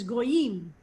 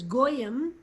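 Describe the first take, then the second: First: "goyim" said go-YIM, stress on the final syllable; "goyim" with the weight on YIM, modern Hebrew style; "goyim" as Yael says it, go-YIM. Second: "goyim" said GOY-im, stress on the first syllable; "goyim" with the weight on GOY, Yiddish style; "goyim" as Yiddish speakers say it, GOY-im. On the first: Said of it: "and Yael says the word is". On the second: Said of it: "That's why Yiddish speakers say this word is". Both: Shown as a demonstration.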